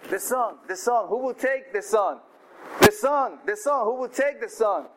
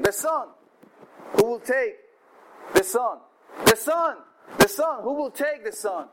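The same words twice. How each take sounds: First: God calling. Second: Auctioneer calling. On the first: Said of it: "God said". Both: Acted.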